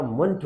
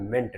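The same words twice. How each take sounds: First: मंट with a weak schwa, "munt"; correct pronunciation. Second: मेंट with a full "e", "ment"; wrong pronunciation. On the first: Teacher explaining the M-E-N-T ending, correct pronunciation. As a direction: say मंट as unstressed "muhnt". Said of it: "हमारा मंट होता है". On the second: Teacher showing what not to say, wrong pronunciation. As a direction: say मेंट like "meant" with short e. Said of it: "मेंट नहीं होता". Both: Shown as a demonstration.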